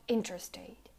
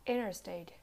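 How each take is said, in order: First: "interstate" with a crisp first T; T sounded. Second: "interstate" like "innerstate"; silent T. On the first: Teacher showing the wrong way, "interstate" with full T. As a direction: release the T after N in "interstate". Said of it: "not interstate". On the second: Teacher showing American English, "interstate" with silent T. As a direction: drop the first T in "interstate". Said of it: "the T is silent". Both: Shown as a demonstration.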